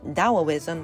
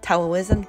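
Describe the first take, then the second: First: The word begins with a D sound. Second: The word begins with a T sound. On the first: This is the modern way to say it. "the modern way of pronouncing it" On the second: This is the older way to say it. "the original pronunciation"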